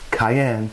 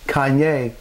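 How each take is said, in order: First: The word ends with an 'en' sound. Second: The word ends with a 'yay' sound. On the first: The speaker calls it right. "I said cayenne" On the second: The speaker calls it wrong. "I did not say Kanye"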